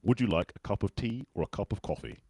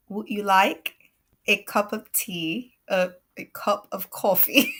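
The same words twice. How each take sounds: First: British accent model phrase, measured and clear; British English accent. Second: Slow, halting go at a British accent; badly faked British accent, tipping into laughter; hesitant British imitation that drifts toward New York; attempted British accent. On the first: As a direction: say it in a British accent for someone to copy. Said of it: "Let's try one". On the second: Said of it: "I'll try to do the British". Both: Shown as a demonstration.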